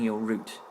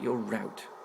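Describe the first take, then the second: First: The word route rhymes with boot. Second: The word route rhymes with out. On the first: The speaker calls it right. "you're selecting your route" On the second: The speaker calls it wrong. "not your route"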